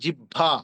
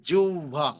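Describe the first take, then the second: First: A double b, plain then breathy. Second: The first b becomes an o-like sound. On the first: The speaker calls it wrong. "তাহলে উচ্চারণ হওয়ার কথা" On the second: The speaker calls it right. "ওই প্রথম বটা ও এর মতো হয়ে যাবে"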